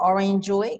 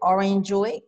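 First: The second word sounds like 'joy'. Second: The same.

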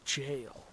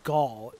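First: The word begins with a J sound. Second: The word begins with a hard G sound. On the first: The speaker calls it right. "It's jail" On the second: The speaker calls it wrong. "so it's not Gaul"

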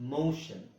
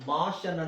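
First: The first vowel sounds like a long 'oh'. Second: The first vowel sounds like a short 'ah'. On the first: The speaker calls it right. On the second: The speaker calls it wrong.

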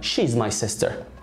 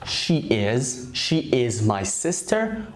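First: She and is are merged into one syllable. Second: She and is are said as two full words.

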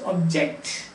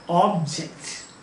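First: The stress is on the second syllable. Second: The stress is on the first syllable. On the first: The speaker calls it wrong. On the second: The speaker calls it right. "No. Object"

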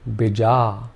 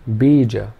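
First: Only the second vowel is long. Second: Only the first vowel is long. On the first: "if we made the second vowel sound long" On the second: "if the first vowel sound was long"

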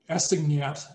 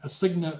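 First: The final t sound is pronounced. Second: The final t sound is left silent. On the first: "I would pronounce it assignat" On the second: "the French don't pronounce the final consonant"

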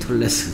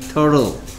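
First: The word ends with a T sound. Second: The word ends with an L sound. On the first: The speaker calls it wrong. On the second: The speaker calls it right.

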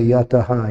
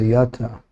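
First: The word ends with an added echoing ha. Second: The word ends plainly without an added ha. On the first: The speaker calls it wrong. "you don't say yataha" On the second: The speaker calls it right. "you say yata"

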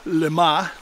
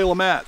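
First: The name is pronounced the French way. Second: The name is pronounced the American way. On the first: "a lot of people think should be pronounced LeMat" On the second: "generally people say LeMat"

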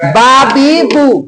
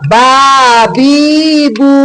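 First: The vowels are short, with no lengthening. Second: Each vowel is drawn out by one beat. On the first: "এতে টান হবে না" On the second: "এই জায়গায় একালি টান হবে"

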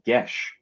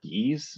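First: The name is said with a short 'e' and 'sh'. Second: The name is said with a long 'ee' and 's'. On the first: The speaker calls it right. "it's pronounced Gesh" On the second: The speaker calls it wrong. "and not Geese, because I've always said Geese"

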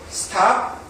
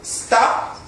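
First: The t is puffed, with a burst of air. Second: The t is tense, without a puff of air. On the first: The speaker calls it wrong. "한국식으로 읽으면" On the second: The speaker calls it right. "영어에서는"

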